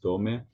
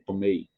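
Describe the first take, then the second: First: The word ends on e, without the i. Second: Both the e and the final i sound clearly. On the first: The speaker calls it wrong. "not just tome" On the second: The speaker calls it right. "you have to let it sound on both"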